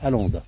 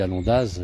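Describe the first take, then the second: First: The name is pronounced the local Savoyard way. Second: The name is pronounced the standard French way. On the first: The speaker calls it right. "c'est Alonde, en Savoyard" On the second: The speaker calls it wrong. "je ne la prononce pas correctement"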